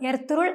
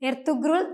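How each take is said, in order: First: The middle has a long vowel, no g. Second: The middle has a hard g sound. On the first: The speaker calls it right. "യുമുഷാക് ഗെ പേര് പോലെ തന്നെ സോഫ്റ്റ് ആയാണ് ഉച്ചരിക്കേണ്ടത്" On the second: The speaker calls it wrong. "പലരും ഉച്ചരിക്കാറുണ്ട്. ഇത് തെറ്റാണ്"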